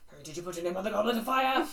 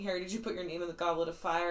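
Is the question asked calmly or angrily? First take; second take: angrily; calmly. First: It is asked in an agitated, angry way. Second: It is asked in a calm, quiet way.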